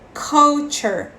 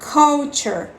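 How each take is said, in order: The two takes are said the same way.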